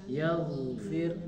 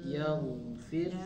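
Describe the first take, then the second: Both takes have the same delivery.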